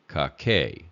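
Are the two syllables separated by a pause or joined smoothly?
joined. The syllables flow together without a pause. "make it flow together"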